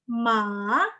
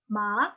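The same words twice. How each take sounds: First: The word is said with the third tone. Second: The word is said with the second tone. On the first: It means horse. "tapi ton tiga" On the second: It means sick. "tapi ton dua"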